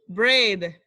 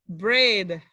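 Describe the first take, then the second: The two takes are said the same way.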